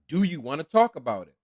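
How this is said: It is asked in a firm, insistent tone.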